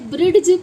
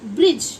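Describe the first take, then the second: First: A d sound is heard before the end. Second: No d sound is heard before the end. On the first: The speaker calls it wrong. "इसे ब्रिड्ज पढ़ेंगे या क्या पढ़ेंगे" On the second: The speaker calls it right. "डी की कहीं भी voice नहीं आ रही है"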